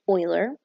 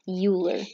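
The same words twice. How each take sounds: First: The name is pronounced differently from its spelling. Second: The name is pronounced the way it is spelled. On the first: The speaker calls it right. "but it's actually Euler" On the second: The speaker calls it wrong. "looks like it should be pronounced Euler"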